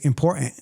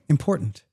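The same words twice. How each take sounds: First: It is said in a Bronx accent. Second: It is said in a general American accent.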